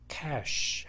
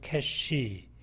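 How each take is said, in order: First: It ends on a bare sh sound. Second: A vowel is added after the final sh. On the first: The speaker calls it right. "cash 하면 되는 것을" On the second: The speaker calls it wrong. "이 발음을 붙이죠 ... 이음절어로 들립니다"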